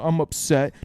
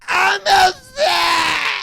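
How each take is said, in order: First: It is said quietly and meekly. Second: It is yelled loudly.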